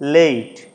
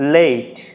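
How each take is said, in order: The two takes are said the same way.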